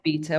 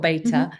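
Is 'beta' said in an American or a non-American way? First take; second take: non-American; American. First: The word is said with a non-American pronunciation. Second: The word is said with an American pronunciation.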